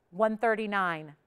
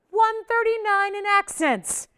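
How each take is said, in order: First: Said in the usual way. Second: One thirty-nine in accents repeated much higher and louder, slowly; emphatic sales repeat, slow and loud. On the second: Real, not acted. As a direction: hammer the number home a second time, slow and loud. Repeating accent weight for viewers.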